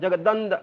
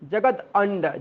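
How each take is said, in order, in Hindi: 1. एक जुड़ा हुआ शब्द, जिसमें d की आवाज़ है। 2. दो अलग शब्द, जो t की आवाज़ पर खत्म होते हैं। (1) "जगदंड ऐसे बोल सकते हैं" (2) "जगत अंड ऐसे बोल सकते"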